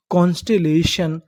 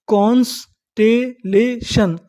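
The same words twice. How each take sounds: First: Said in the usual way. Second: constellation stretched slowly as कॉन्स-टे-ले-शन; syllable by syllable. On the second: Shown as a demonstration. Teacher assembling the word for learners, slow syllable by syllable. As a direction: draw out and separate each part of constellation. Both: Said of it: "तो इतनी meaning".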